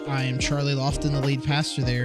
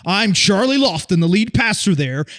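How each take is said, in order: First: It is said in a normal speaking voice. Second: It is said in a booming sports-announcer voice.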